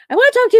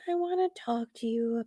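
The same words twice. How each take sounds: First: The tone is firm and stern. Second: The tone is soft and gentle. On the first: "normally she's like" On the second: "her de- demeanor is very soft"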